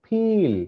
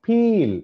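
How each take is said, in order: First: peel lifted higher, initial ప popped clearly; clear demo word. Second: Said in the usual way. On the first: Shown as a demonstration. Teacher sounding out the word for students, higher and crisp. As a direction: say peel up high, hit the opening ప. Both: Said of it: "first చూడండి".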